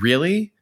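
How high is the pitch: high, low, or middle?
low. The word is said at a lower pitch. It questions the absurd situation. "That sounds like a question in itself"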